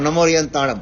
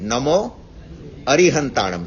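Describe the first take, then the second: First: The vowel before 'rihantanam' is dropped. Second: A vowel is said before 'rihantanam'. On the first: The speaker calls it wrong. "આપણે ઝડપથી બોલતા હોઈએ ને તો" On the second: The speaker calls it right. "નમો રી નથી, નમો અરિહંતાણમ છે"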